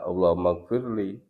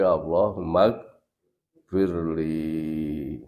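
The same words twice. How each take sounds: First: The final vowel is cut short. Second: The final vowel is drawn out long. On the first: The speaker calls it wrong. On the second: The speaker calls it right. "dibaca panjang"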